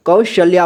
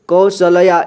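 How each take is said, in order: First: कौशल्या with a half ल joined straight into या; correct pronunciation. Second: कौशल्या with a full ल sounded between श and या; wrong pronunciation. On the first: Teacher showing pupils the right way to read कौशल्या. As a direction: say कौशल्या as कौश-ल्या with the ल cluster fused. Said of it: "बल्कि इसे कौशल्या पढ़ना है". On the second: Teacher showing pupils the wrong way to read कौशल्या. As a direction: say कौशल्या as कौ-श-ल-या with the ल given its own vowel. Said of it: "इस तरह से नहीं पढ़ना है". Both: Shown as a demonstration.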